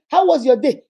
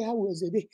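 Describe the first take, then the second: First: Loud, sharp and a bit higher; an edgy spouse hitting the greeting hard; sharp demanding question. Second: Much softer, lower and gentle; a nervous spouse softly asking about his day; soft gentle question. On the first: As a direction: bark the question at him. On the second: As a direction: ask it tenderly, almost timid. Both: Acted. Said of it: "did I say".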